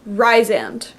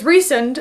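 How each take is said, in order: First: The first syllable sounds like the word 'rise'. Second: The first syllable does not sound like 'rise'. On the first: The speaker calls it right. "Rysand, rise, and, right? Because I saw the rise" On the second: The speaker calls it wrong. "when I heard that it was Rhysand"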